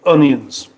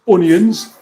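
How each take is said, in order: First: It is said in a plain standard British accent. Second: It is said in a Northern English accent. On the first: "normal people say onions"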